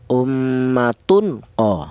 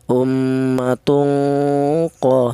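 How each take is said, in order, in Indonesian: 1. Huruf n dibaca jelas sebelum q. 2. Huruf n disamarkan menjadi dengung sengau. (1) "Tanwin ini dibaca jelas itu tidak boleh" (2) "Jadi cara bacanya tanwin ini disamarkan"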